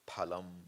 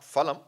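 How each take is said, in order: First: The word is said with a Sanskrit pronunciation. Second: The word is said with a non-Sanskrit pronunciation. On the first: The speaker calls it right. "That's right Sanskrit" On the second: The speaker calls it wrong. "Not phalam"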